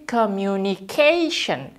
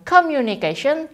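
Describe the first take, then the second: First: The stress falls on the 'ca' syllable. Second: The stress falls away from the 'ca' syllable. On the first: The speaker calls it right. "tapi communication" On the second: The speaker calls it wrong. "Jadi bukan communication"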